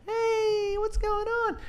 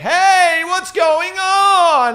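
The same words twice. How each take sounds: First: It is said in a high, light falsetto voice. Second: It is said in a full, low chest voice. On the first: "that's falsetto" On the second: "That's my chest voice"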